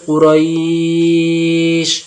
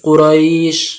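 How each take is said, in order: First: The vowel before the final sound is held two beats. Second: The vowel before the final sound is held one beat. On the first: "দু আলিফ দিতে পারেন" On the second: "এক আলিফ দিতে পারেন"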